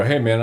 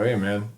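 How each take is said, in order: First: A louder hey man across the lawn; calling out louder. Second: Said in the usual way. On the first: Retold or imitated. Retelling how he called out to the group, louder. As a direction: call out to the guys on the lawn. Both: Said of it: "I go".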